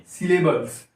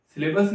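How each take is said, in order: First: "सिलेबल्स" with a clear L before the s; corrected ending. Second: "सिलेबस" ending in a plain -bas, no L; wrong ending. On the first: Teacher correcting the term for students, "सिलेबल्स" with the L sounded. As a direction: sound the -bals at the end of "सिलेबल्स". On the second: Teacher showing students the mistaken word, "सिलेबस" without its L. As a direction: say "सिलेबस" with no L before the final s. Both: Shown as a demonstration. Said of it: "सिलेबस नहीं, सिलेबल्स".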